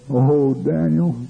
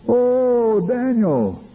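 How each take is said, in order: First: A slow, moderately raised first call; crying out. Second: Much higher, drawn-out call that falls away; high crying out. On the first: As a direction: call out for Daniel, drawn out. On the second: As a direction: cry out for Daniel in a high, long wail. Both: Retold or imitated. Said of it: "he cried out".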